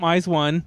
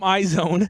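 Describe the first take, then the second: First: The name sounds like 'eyes one'. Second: The name sounds like 'eye zone'. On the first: The speaker calls it wrong. "I don't like to call them eyes one" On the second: The speaker calls it right. "I call them eye zone"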